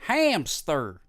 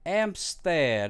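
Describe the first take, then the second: First: The word begins with an audible h sound. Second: The word begins with no h sound. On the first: This is the English pronunciation. "How do you say it in English?" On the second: This is the French pronunciation. "that's how you say it in the in French"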